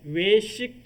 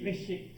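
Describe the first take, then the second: First: The first vowel is pronounced long. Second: The first vowel is pronounced short. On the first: Eating out. "길게 발음을 해줘야 되는데" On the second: Japanese food. "짧게 발음하면은 일본 음식을 외식이라고 해요"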